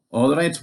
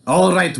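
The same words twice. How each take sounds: First: First call, rising, milder; giant calling. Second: Louder second call, all punched; giant bellowing. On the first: Giant at the door, first milder call. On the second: Giant at the door calling for Finn, loud bellow. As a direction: boom it at the door. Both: A narrator's reading. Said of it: "bellowed the giant at the door".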